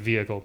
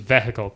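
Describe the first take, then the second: First: It is said with the usual standard pronunciation. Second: It is said with an Irish Midlands pronunciation. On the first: This is how most other people say it. "instead of vehicle" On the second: This is how people from one region say it. "Midlands also says vehicle"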